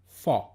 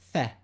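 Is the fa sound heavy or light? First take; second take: heavy; light. First: The syllable sounds heavy and thick. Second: The syllable sounds short, sharp and light. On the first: The speaker calls it wrong. "Common mistake is to say fa" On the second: The speaker calls it right. "The correct pronunciation is fa"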